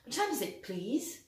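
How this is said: It is said with French sounds and flat rhythm. The speaker calls it wrong. "Là, c'est la version française, hein, la boîte à musique"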